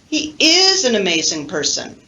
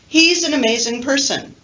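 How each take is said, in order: First: The verb is said in full and stressed. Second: The verb is contracted and unstressed. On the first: "if I want to really emphasize it" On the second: "The normal sentence without emphasis"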